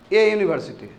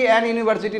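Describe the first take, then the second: First: "ए university" with no n before the y; correct article. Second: "एन university" with an n before the y; wrong article. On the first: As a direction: clear "ए" straight into "university". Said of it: "एन university नहीं बोलना है". ("ए university" बिना न की ध्वनि के) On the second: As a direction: show the mistaken "एन" before "university". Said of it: "गलती से भी एन यूनिवर्सिटी नहीं बोलना है". ("एन यूनिवर्सिटी" में गलत न की ध्वनि) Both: Shown as a demonstration.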